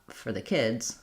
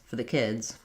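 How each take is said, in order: The two takes are said the same way.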